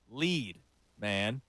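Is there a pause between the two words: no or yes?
yes. A short pause separates lead from man. It tells a man to lead. The speaker calls it right. "Like, yo, dog, you got to lead"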